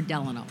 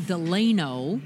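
First: "Delano" as DEL-a-no, first syllable stressed; other pronunciation. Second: "Delano" as de-LAY-no, middle syllable stressed; outsider's pronunciation. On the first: Correcting the town name, "Delano" said DEL-a-no. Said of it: "which is what I grew up for". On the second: Showing what marks an outsider, "Delano" said de-LAY-no. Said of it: "nothing marks you quicker as an outsider". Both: Shown as a demonstration.

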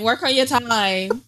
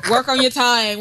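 First: Said in the usual way. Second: Laughing. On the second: Real, not acted. Joking retort, laughing.

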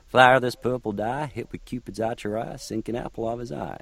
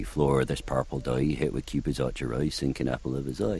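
First: Oberon lines in a higher Southern American accent. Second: "dye" sounds like "doy", "archery" ends in "oy"; original pronunciation. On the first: Coaching the actor to find a Southern American accent that rhymes. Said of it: "Do it in Southern American". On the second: Workshop leader shows Oberon the OP rhyme, softly. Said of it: "it does in O P". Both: Shown as a demonstration.

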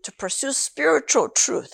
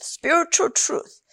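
First: Said in the usual way. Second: Spiritual truth slowed and lifted higher; emphatic repeat. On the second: Shown as a demonstration. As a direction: lean on spiritual truth, slowly. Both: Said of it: "repeats phrase for emphasis".

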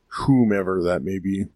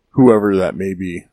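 First: Whomever with a precise, prim stress on whom; mock-formal whomever. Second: Said in the usual way. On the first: Shown as a demonstration. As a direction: say Whomever primly, as a correction.

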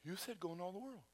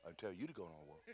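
First: Meek protest. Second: Very soft, low-pitched comeback; low deadpan retort. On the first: Preacher arguing back to God, meekly protesting. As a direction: protest quietly, pleading your case. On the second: God correcting the preacher, low and quiet. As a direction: answer back quietly, dropping right down. God's deadpan answer in retold dialogue. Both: Retold or imitated.

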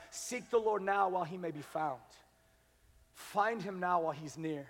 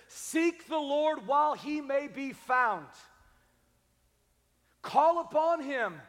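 First: 2 calm softer repeat. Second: Slow, loud and higher, each word weighted; 2 slow emphatic scripture. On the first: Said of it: "repeated softer". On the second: Pastor reading Isaiah to the church, slow emphatic proclamation. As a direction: proclaim it slowly. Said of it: "he says this". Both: Acted.

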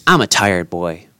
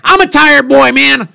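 First: Low, weary confession; tired. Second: High, louder protest of tiredness; exasperated complaint. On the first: Host excuses himself after the holiday season, tired. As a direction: sag into a lower, tired voice. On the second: Tired host protests to his distracted co-host, exasperated. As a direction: plead it at a raised pitch, fed up. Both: Real, not acted.

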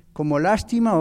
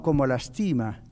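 First: "lástima" stressed on the first syllable, LÁS. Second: "lastima" stressed on the middle syllable, TI. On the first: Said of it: "¿Cuál de las dos lleva acento y dónde?". ("lástima" con acento en LÁS, la primera sílaba) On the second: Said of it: "Si le quitamos el acento a la A". ("lastima" con acento en TI, la sílaba del medio) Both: Shown as a demonstration.

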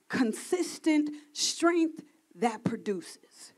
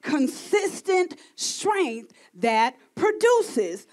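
First: Breathy whisper, slow and hushed. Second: Slow and deliberate. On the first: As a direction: whisper it like God's secret. Reveals God's quiet words. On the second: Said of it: "God said power is pure". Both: Acted.

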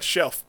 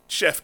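First: CHEF slipped into "shelf", with an L; slip of the tongue. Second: Said in the usual way. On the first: Real, not acted. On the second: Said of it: "Or chef?".

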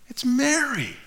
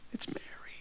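First: Said in the usual way. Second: Breathless unvoiced whisper of the name. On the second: Shown as a demonstration. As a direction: whisper it like a secret wonder.

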